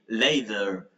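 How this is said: The middle consonant sounds like a soft d. "Americans say later"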